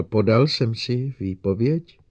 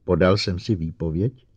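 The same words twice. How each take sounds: First: Slow, hesitant repeat of "Podal jsem si výpověď?"; Lenning nervously repeating his question to the silent robot; a bit unsure. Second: Said in the usual way. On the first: A narrator's reading. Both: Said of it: "trochu nejistě opakoval".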